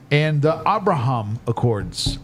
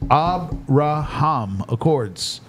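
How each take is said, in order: First: Abraham drawn out slowly with a broad open "hahm"; Abraham Accords said slowly, "AB-ra-hahm"; Trump pronunciation. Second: Abraham Accords stretched very slowly, "AB-ra-hahm"; Abraham with a broad "hahm", very slow; Trump pronunciation. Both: Shown as a demonstration. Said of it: "that's how it's pronounced by Uncle Trump".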